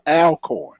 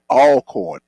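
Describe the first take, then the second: First: The first syllable sounds like the name 'Al'. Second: The first syllable sounds like 'all'. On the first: The speaker calls it wrong. "It is not Alcorn" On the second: The speaker calls it right. "It's named Alcorn. ... A L L L L L L dash corn"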